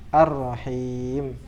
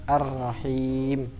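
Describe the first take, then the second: The two takes are said the same way.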